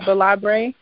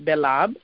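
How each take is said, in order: First: The surname is pronounced the American way. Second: The surname is pronounced the French way. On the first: The speaker calls it wrong. "A lot of Americans pronounce it Belabre" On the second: The speaker calls it right. "my last name is pronounced Belab. It's French"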